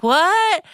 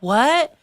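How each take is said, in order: First: Much higher, exclaimed in disbelief; incredulous what. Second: Higher, not catching it; retold "What?" when you can't hear; puzzled what. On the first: Retold or imitated. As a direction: re-enact a high-pitched "What?!". Second, stronger reaction to unheard confession. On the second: Can't hear him in loud bar.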